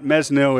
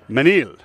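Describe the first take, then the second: First: The S sound is pronounced in the name. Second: The S sound is left silent in the name. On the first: The speaker calls it wrong. "It's not Mesnil" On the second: The speaker calls it right. "you don't pronounce the S"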